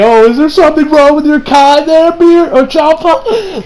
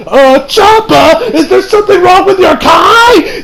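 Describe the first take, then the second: First: Higher, slow mock-innocent question; sarcastic Beerus. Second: Higher, slow puzzled voice; concerned Beerus. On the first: Beerus needling Champa, high and slow with sarcasm. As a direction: ask with a teasing, fake-concerned lilt. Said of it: "sounds like he was kind of being sarcastic". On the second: Retold or imitated. Beerus asking Champa about his Kai, high and slow. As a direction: ask as if truly worried about him. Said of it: "Beerus is like".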